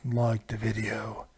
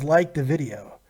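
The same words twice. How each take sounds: First: Low, slow, drawn-out menacing voice; a deep Darth Vader impression; deep slow villain voice. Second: Said in the usual way. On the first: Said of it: "who the hell that was supposed to be". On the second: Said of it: "Pez Darth says".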